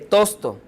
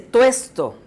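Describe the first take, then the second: First: The stressed vowel is a plain o. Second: The stressed vowel is the diphthong ue. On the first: The speaker calls it wrong. "en lugar de" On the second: The speaker calls it right. "Se dice"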